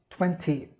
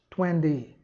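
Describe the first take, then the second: First: It has a crisp British t sound. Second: It has a soft American d-like t. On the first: "em inglês britânico" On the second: "Em inglês americano"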